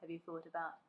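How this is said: It is said in a low, deep voice. "to a low male voice"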